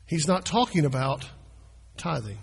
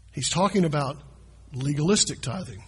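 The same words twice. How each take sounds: First: Plain tithing said down low to set up the contrast; stress on NOT. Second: "legalistic" given the main weight, "tithing" falling after it; stress on LEGALISTIC. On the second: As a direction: hit "legalistic" to make the contrast. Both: Shown as a demonstration.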